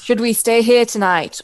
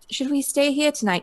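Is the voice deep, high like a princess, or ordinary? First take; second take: deep; princess. First: It is said in a deep, eloquent voice. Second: It is said in a princess-like voice.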